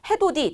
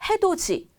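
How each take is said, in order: First: The consonant before the last vowel is a plain d. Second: The consonant before the last vowel is a j sound. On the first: The speaker calls it wrong. "그런데 우리는 그게 익숙하지 않고" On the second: The speaker calls it right. "구개음으로 변화하는 발음이 익숙해졌거든요"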